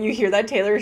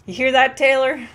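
First: Said in the usual way. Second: Louder, playful taunt at the PS5's owner; mock taunt. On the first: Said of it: "Chat is saying". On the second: Streamer joking to her friend about keeping the borrowed console, mock taunting. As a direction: tease the owner with fake menace. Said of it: "I can't even say that seriously".

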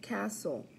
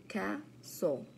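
First: Said in the usual way. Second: Castle split into ca-stle with a gap; syllable by syllable. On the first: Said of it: "practice our counting syllables". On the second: Shown as a demonstration. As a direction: count out two beats in Castle. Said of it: "Two syllables".

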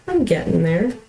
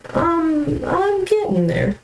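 First: Said in the usual way. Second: "I'm getting there" squeaked much higher, in a put-on voice; high squeaky voice. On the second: Repeats line, first take squeaky.

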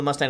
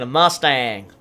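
First: Said in the usual way. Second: Drawled American "Mustang"; mock American accent. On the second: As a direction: put on an American twang for Mustang. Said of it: "my American accent".

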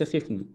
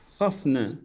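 First: "خفنا" with a short "i": khifna; kasra on kha. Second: "خفنا" with a short "a": khafna; fatha on kha. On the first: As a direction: say "خفنا" as khifna, close first vowel. («خفنا» بكسر الخاء) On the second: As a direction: say "خفنا" as khafna, open first vowel. («خفنا» بفتح الخاء) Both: Shown as a demonstration. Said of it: "ليس خفنا".

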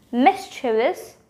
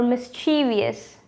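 First: "Mischievous" as MIS-chuh-vus, slowly, rising; three-syllable pronunciation. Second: "mischievous" as mis-CHEE-vee-us; four-syllable mispronunciation. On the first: Teacher quizzing viewers with first option, three-syllable pronunciation. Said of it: "What is it? Mischievous or mischievous". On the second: Teacher quizzing viewers with second option, four-syllable mispronunciation. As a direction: add an extra "ee" to "mischievous", stressing CHEE. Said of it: "add the fourth syllable". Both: Shown as a demonstration.

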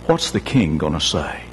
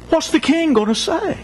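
First: Despairing servant. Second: Anguished cry. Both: Acted. Servant despairs, repeats line.

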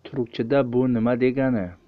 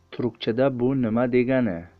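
Both takes have the same delivery.

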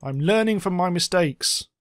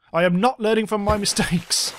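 First: Said in the usual way. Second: "not" punched, the line a little higher and louder than "I'm learning from my mistakes"; self-mocking correction with a laugh before "mistakes"; stress on not. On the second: Shown as a demonstration. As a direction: lean hard on "not", laughing at yourself.

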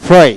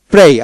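First: ফ্রে with a puffed p-h before the r; British pronunciation. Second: প্রে with an unpuffed p; plain P. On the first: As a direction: open ফ্রে with a burst of air. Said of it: "ব্রিটিশে ফ্রে". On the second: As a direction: say প্রে with no air burst on the p. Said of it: "The phonetics-এ এবং ব্রিটিশে ফ্রে". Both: Shown as a demonstration.

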